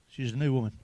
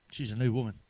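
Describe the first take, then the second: No difference in how they are said.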